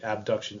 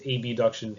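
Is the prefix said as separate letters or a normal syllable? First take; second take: normal syllable; separate letters. First: The prefix is said as a normal syllable. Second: The prefix is said as separate letters. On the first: It is the usual everyday pronunciation. "normally it'd be abduction" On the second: It keeps the word from being confused with its opposite. "I'll make sure that I pronounce them as abduction"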